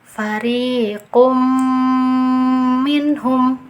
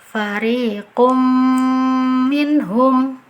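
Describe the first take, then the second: First: The m merges with a nasal held two counts. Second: The m merges with a nasal held two counts.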